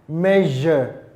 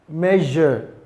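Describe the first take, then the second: Both takes have the same delivery.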